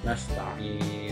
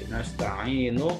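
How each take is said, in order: First: The word ends on a bare n sound. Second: The word ends with a short vowel. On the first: The reading stops at this word. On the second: The reading continues without stopping.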